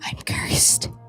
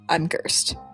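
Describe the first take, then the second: First: It is said in a strained whisper. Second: It is said in a normal voice.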